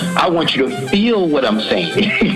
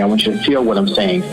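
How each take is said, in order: First: It is said with intense passion and force. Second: It is said calmly without raising the voice. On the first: "he's talking with so much passion" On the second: "she's talking in this in this voice where she's saying, "I don't want to yell"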